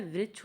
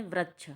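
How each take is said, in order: First: Said in the usual way. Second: वृक्ष mispronounced as vrachh; children's mispronunciation. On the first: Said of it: "होता क्या है". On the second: Shown as a demonstration. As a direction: say वृक्ष with "ra" in place of "ri". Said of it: "लेकिन बच्चे क्या पढ़ते हैं".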